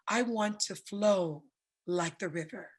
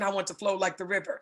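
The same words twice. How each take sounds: First: It is said in a soft, flowing voice. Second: It is said in a tight, controlled voice.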